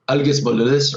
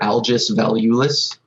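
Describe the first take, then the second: First: The name is said with Lithuanian pronunciation. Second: The name is said with English pronunciation.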